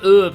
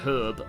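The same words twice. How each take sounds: First: It is said the American, French-influenced way. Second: It is said the speaker's own Australian way. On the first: This is how Americans say it. "it's why they say herb" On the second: This is how non-Americans say it. "not herb"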